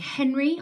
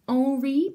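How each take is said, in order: First: The name starts with a pronounced H sound. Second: The name starts with a silent H. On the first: The speaker calls it wrong. "instead of saying Henry" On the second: The speaker calls it right. "because it's French and the H is silent"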